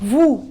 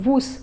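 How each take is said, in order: First: The final s sound is silent. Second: The final s sound is pronounced. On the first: The speaker calls it right. "this is woo" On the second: The speaker calls it wrong. "this is also not woos"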